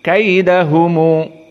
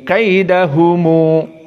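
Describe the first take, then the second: The two takes are said the same way.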